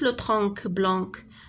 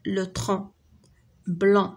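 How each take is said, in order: First: The final c of each word sounds as k. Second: The final c of each word is silent. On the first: The speaker calls it wrong. "ما كنقولوش" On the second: The speaker calls it right. "شي مرات à la fin ما كتنطقش كاع"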